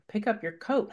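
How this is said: The request is said in a calm, gentle tone. The speaker is not annoyed. "you know that I'm not really irritated"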